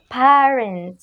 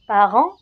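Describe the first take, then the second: First: "parent" said as in English, stressed first syllable; English pronunciation. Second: "Parent" said the French way, nasal final vowel, silent t; prononciation française. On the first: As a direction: say "parent" the English way, not with the French nasal ending. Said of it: "il devient en anglais parent". (« parent » prononcé à l'anglaise) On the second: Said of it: "Le différent seulement dans la prononciation". (« Parent » à la française, t muet) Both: Shown as a demonstration.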